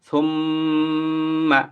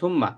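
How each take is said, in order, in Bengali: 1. দ্বিত্ব মিমটি নাকের গুনগুন সহ টানা হয়। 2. দ্বিত্ব মিমটি নাকের গুনগুন ছাড়া সংক্ষেপে পড়া হয়।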